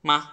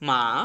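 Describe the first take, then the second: First: It is short and light with no pitch movement. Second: The pitch falls sharply from high to low. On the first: "just ঠাস করে একটু উচ্চারণ করে শেষ" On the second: "ভয়েসের সর্বোচ্চ পর্যায় থেকে আমাদের ওয়ান লেভেলে চলে আসতে হবে"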